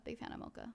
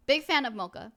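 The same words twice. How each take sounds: First: Whispered echo of the phrase; whispering. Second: Said in the usual way. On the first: Shown as a demonstration. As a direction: breathe it like a secret. Repeats phrase, second whispered.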